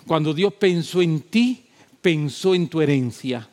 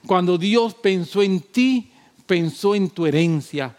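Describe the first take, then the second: First: Said in the usual way. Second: "Cuando Dios pensó en ti" slower and a bit louder, leaning on "ti"; slower emphatic repeat. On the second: Shown as a demonstration. Preacher repeats "Cuando Dios pensó en ti" to the congregation, slow and pressing. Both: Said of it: "Te lo voy a repetir".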